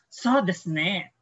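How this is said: It sounds agreeing and affirming. The speaker agrees with the listener. "Oo, tama ka dyan. Okay, that's right"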